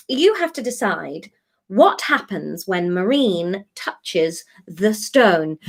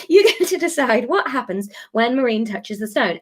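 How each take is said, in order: First: Slow, weighty build to the stone; dramatic announcement. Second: Giggling through the retry; trying to stay serious but laughing. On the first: Acted. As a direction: stretch it out like a trailer voice-over. Announcing the big decision dramatically. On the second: Real, not acted. Repeats announcement, breaking into laughter.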